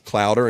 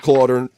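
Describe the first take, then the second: First: The first syllable sounds like 'cloud'. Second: The first syllable rhymes with 'daughter'. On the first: The speaker calls it wrong. "everybody says Clouder and destroys your last name" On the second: The speaker calls it right. "It's Clauder, like daughter"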